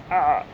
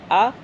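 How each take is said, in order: First: آ squeezed from the throat, lower in pitch; throaty ain. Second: Said in the usual way. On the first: Shown as a demonstration. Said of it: "پھر حلق سے". (آ حلق سے، عین کی طرح) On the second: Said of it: "پہلے الف ہے بعد میں عین".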